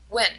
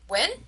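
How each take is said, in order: First: The pitch falls at the end. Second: The pitch rises at the end. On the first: The speaker understood and wants more information. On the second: The speaker did not catch what was said.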